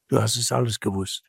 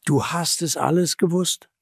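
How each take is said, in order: First: Quick, subdued pronouncement; low-key, grave reproach; sober verdict. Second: Raised-pitch appeal to the listener; urging, slightly raised voice; earnest appeal. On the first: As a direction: state it quietly as a final judgement. Same words as sober verdict. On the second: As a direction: press it home earnestly. Urgent appeal, later repeated as verdict. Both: Acted.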